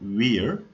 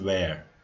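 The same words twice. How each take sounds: First: The vowel sounds like the one in 'ear'. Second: The vowel sounds like the one in 'air'. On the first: The speaker calls it wrong. "This isn't wear" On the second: The speaker calls it right. "This is wear"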